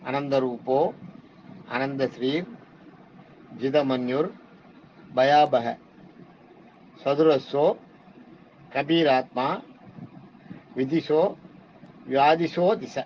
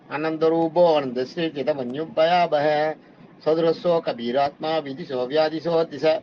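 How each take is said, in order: First: Each word is said separately with pauses between. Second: The words run together quickly without pauses. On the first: The words are split apart so they can be understood. "இது நான் எதுக்கு உங்களுக்கு நிறுத்தி சொல்றேன்னா" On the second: This is how the verse is properly recited. "இப்ப சொல்றேன் பாருங்க எப்படி படிக்க"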